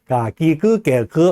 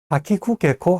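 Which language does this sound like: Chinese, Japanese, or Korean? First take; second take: Chinese; Japanese. First: The syllables are said with a Chinese-like accent. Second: The syllables are said with a Japanese-like accent. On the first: "하면은 중국어 같은 그런 느낌이 들잖아요" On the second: "하면 일본어 같고요"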